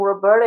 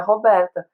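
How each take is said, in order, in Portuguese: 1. O nome é dito com sotaque inglês. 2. O nome é dito com sotaque português. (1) "eu me apresento como Roberta" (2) "meu nome na verdade é Roberta"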